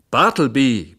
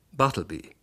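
First: Roaring the name at full volume, higher; furious employer roars for his clerk; bellowing the name. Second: Said in the usual way. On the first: A narrator's reading. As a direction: yell it out across the office. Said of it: "brüllte ich". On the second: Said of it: "in noch lauterem Ton".

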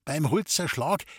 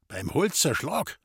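First: Said in the usual way. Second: „Holzerschlag“ lifted into a rising question; questioning echo. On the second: Acted. Forester checks where the poachers were, questioning echo with „Holzerschlag“ rising. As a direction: repeat it back as a question, „Holzerschlag“ rising at the end. Forester echoes the answer, taken aback.

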